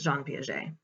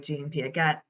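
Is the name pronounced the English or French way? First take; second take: French; English. First: The name is said with French pronunciation. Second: The name is said with English pronunciation. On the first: This is how the name is said in French. The speaker calls it right. "if you put the French accent on it" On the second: This is how other people commonly say it. The speaker calls it wrong. "I've heard people say"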